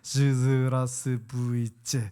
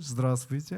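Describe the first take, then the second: First: The greeting is pronounced awkwardly and clumsily. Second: The greeting is pronounced smoothly and fluently. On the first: This is how a beginner said it back then. The speaker calls it wrong. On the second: This is how it is said now. The speaker calls it right.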